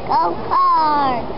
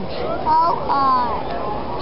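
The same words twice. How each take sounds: First: It is said loudly. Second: It is said at normal, quieter volume.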